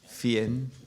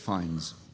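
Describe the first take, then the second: First: The name is said with a French pronunciation. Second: The name is said with an English pronunciation. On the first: This is the original form of the name. "originally French, Norman French" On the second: This is how the name is said now. "but it's Fiennes"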